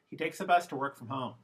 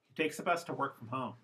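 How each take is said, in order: First: The unstressed vowels are reduced to schwa. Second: The unstressed vowels are reduced to schwa.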